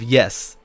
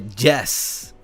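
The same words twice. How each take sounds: First: It begins with a soft y sound. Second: It begins with a hard j sound. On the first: "instead of yes" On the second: "or yes instead of yes"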